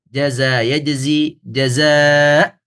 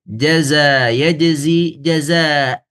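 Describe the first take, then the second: The two takes are said the same way.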